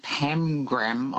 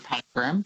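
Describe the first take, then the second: First: "pamgram" with an M closing the first syllable; as misheard. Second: "pangram" with an N closing the first syllable; alternative word. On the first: Caller puzzling over the quiz word, "pamgram" with an M. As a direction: say "pamgram" as PAM-gram. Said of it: "immediately when you said pamgram". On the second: Caller recalling a similar word, "pangram" with an N. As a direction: say "pangram" as PAN-gram. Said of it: "I thought of pangram". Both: Retold or imitated.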